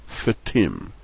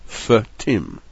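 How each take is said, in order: Both takes have the same delivery.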